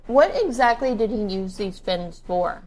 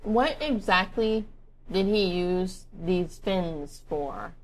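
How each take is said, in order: First: Talking through a mouthful of food; words mushed by chewing; mouth full. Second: Slowly and carefully, mouth now empty; slow clear repeat. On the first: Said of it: "I'm sorry, I'm eating". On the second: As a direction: spell it out word by word. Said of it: "let me finish". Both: Real, not acted.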